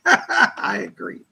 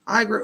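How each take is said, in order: First: Slow, laughing reread of "I agree". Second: Said in the usual way. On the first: Real, not acted. Laughing as she rereads the viewer's "I agree". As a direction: chuckle through "I agree", drawn out.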